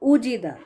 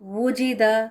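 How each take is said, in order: First: The word begins directly with an oo vowel. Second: The word begins with a rounded w sound. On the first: The speaker calls it wrong. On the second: The speaker calls it right.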